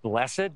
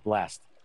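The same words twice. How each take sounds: First: The word is said in a formal, churchy way. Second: The word is said in a plain, everyday way. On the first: It sounds religious and formal. "Sometimes we pronounce this word blessed. ... It sounds more churchy" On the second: It sounds ordinary and everyday. "you can just pronounce it blessed"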